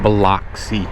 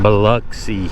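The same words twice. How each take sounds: First: The middle vowel is not a U sound. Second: The middle vowel is a U sound. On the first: The speaker calls it wrong. "A lot of people mispronounce Biloxi. They call it" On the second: The speaker calls it right. "with like a U"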